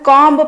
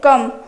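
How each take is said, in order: First: The word ends with a pronounced b sound. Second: The word ends with m and no b. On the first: The speaker calls it wrong. "ସେଟା ଆମେ କମ୍ବ ପଢିବାନି" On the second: The speaker calls it right. "ଆମେ କଣ ପଢିବା କମ୍ ତାର ବି ଟା ହଉଛି silent ରହିବ"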